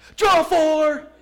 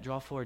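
First: It is said forcefully and tauntingly. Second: It is said mildly and politely. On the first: The move is thrown in the opponent's face. "This is how he does it. Like just right in my face" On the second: The move is announced without gloating. "he's not going to say it like that"

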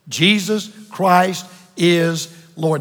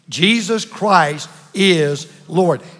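First: It is said plainly, without strong feeling. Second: It is said forcefully, with strong conviction.

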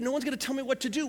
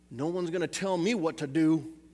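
First: It is said in his plain accent. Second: It is said in a Southern accent.

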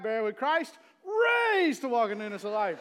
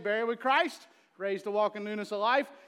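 First: One word is pushed out with extra force. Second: It is spoken evenly with no extra push. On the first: The effort of lifting a heavy person shows. "When it's a taller guy, ... you might emphasize a word a little more" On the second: An ordinary baptism with no strain. "So I'd normally say"

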